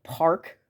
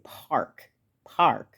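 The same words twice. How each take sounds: First: Park in the Milwaukee way; Milwaukee-style park; Milwaukee vowel. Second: Park said with a U P accent; Yooper-style park; Yooper vowel. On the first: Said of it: "you might say something like". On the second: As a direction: say park like someone from the Upper Peninsula. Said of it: "Someone in the U P might say". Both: Shown as a demonstration.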